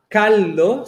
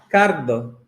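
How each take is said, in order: First: The sound before the d is an l. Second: The sound before the d is an r. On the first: This is the expected standard form. "ao invés de falar caldo" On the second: This is a rural regional form. "se fala cardo"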